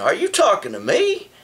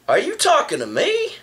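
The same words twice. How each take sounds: First: A light tough-guy movie challenge; lightly voiced, play the famous movie tough guy; Robert De Niro impression. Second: High, rising upset question; mock upset challenge. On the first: To the man behind him, a lightly voiced De Niro challenge. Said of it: "what's his name, Robert De Niro". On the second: To the guy on the bus, a mildly upset high question. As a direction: push back at him, a little put out. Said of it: "kinda upset, you know, kinda like".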